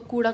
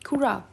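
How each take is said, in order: First: The word is said in a plain, ordinary way. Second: The word is said in a put-on accent.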